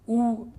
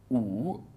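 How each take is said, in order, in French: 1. Il se prononce avec le premier ton. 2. Il se prononce avec le deuxième ton.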